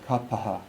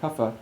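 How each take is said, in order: First: It is said with the original Sanskrit sounds. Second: It is said with Hindi-influenced, Westernized sounds. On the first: "Those are how we pronounce certain words in Sanskrit" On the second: "when we've inherited it through two hundred years of Hindification"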